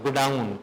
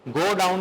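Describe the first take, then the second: First: It is said as one joined word. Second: It is said as two separate words. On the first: The speaker calls it right. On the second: The speaker calls it wrong.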